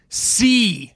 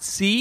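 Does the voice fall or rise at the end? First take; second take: fall; rise. First: The voice falls at the end like a command. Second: The voice rises at the end like a question. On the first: She is ordering them to see. The speaker calls it right. "It's an imperative" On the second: She is asking whether they see. The speaker calls it wrong. "But it's not"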